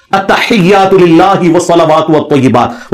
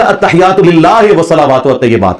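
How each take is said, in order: First: Very slow Arabic articulation, "للہ" as lillaahi with a pure i; maroof recitation. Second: "للہ" said as lillaahe, quicker and less articulated than careful Arabic; majhool recitation. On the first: Shown as a demonstration. Teacher challenging a cleric's prayer reading, careful maroof recitation. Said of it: "نماز بھی معروف طریقے سے". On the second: Retold or imitated. Teacher imitating how the cleric will read prayer, majhool vowels. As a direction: imitate a reading with e for i in "للہ" and "والطیبات", plain h in "التحیات". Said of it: "وہ پڑھے گا".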